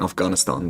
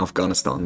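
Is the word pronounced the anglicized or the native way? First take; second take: native; native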